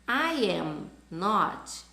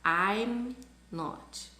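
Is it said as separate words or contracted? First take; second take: separate; contracted. First: Said as three separate full words. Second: The first two words are joined together.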